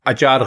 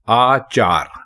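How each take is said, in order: First: The first vowel is a short 'a'. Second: The first vowel is a long 'aa'. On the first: The speaker calls it wrong. "अचार गलत है" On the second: The speaker calls it right. "आचार कहना दुरुस्त है"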